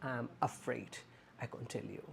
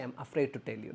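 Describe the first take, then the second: First: Soft, gentle "I'm afraid, I can't tell you"; correct phrase, soft. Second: Said in the usual way. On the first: Shown as a demonstration. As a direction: say it kindly and softly. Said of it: "just say". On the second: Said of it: "but never say".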